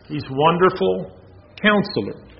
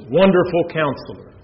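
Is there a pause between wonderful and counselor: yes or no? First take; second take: yes; no. First: There is a pause after wonderful. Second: It is said without a pause.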